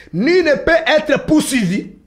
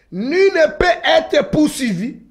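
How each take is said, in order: No difference in how they are said.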